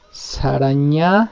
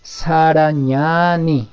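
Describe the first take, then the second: First: Sarañani slow, with the marked A stretched long; lengthened vowel. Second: Sarañani very slow, the A held long; strongly lengthened vowel. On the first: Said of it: "alarguen un poco la pronunciación". (alargando la vocal de Sarañani) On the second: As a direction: stretch the vowel in Sarañani even more. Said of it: "es alargar un poco más la pronunciación". (Sarañani con la A bien alargada) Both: Shown as a demonstration.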